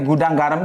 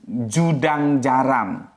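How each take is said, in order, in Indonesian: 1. Kata-kata itu diawali dengan bunyi G. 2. Kata-kata itu diawali dengan bunyi J.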